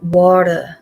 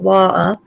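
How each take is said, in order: First: It is said in an American accent. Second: It is said in a Manx accent. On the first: "my little girl calls it water" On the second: "some Manx call it water"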